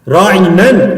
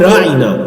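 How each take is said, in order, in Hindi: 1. शब्द के अंत में एक n ध्वनि जोड़ी गई है। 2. शब्द स्वर पर खत्म होता है, n के बिना। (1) "तनवीन के साथ पढ़ा जाए राइनन" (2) "दुरुस्त अल्फाज थे राइना"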